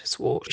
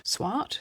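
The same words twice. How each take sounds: First: Swart with an "aw" vowel, like "swort"; settled pronunciation. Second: Swart with an open "ah", rising like a question; questioning pronunciation. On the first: Host settling a doctor's surname, Swart said as "swort". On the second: Host checking a doctor's surname, questioning pronunciation of Swart as "swaht". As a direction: try "Swart" as "swaht", unsure. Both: Real, not acted.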